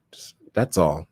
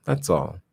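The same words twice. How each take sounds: First: Whispered aside. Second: Said in the usual way. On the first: Real, not acted. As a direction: whisper "that's all" under the breath. Quiet aside to viewers.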